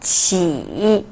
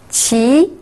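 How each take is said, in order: First: The pitch dips low, then rises. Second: The pitch rises from mid to high.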